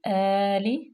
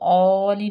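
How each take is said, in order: First: The long vowel is thin and light. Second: The long vowel is thick and heavy. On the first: The speaker calls it right. "बिल्कुल बारीक आली" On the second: The speaker calls it wrong. "इसको औली नहीं करेंगे, अलिफ को मोटा नहीं करेंगे"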